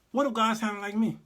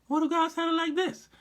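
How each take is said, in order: First: Said in the usual way. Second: Much higher, silly God voice; squeaky God voice. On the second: Shown as a demonstration. Comedian mocking God's voice, much higher. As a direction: pitch God way up for a laugh.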